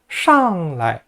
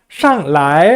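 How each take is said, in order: First: The second syllable is short and light. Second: The second syllable is drawn out long. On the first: The speaker calls it right. "라이를 살짝만 얘기해 주세요" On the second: The speaker calls it wrong. "라이를 길게 뽑지 마세요"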